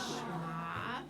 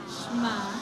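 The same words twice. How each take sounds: First: Said in the usual way. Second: Loud group call. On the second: Shown as a demonstration. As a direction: say it out loud together. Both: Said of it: "can I hear you say that word?".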